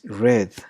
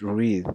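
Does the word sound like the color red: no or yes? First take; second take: yes; no. First: The word sounds like the color red. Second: The word does not sound like the color red. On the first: It is the past form of the verb. "in verb two and verb three it is red, like the color" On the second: It is the present form of the verb. "In verb one it is read"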